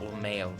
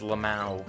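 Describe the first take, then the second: First: The word ends in an ee-oh sound. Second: The word ends in an ow sound. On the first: The speaker calls it wrong. "not Lameo" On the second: The speaker calls it right. "It's Lamau"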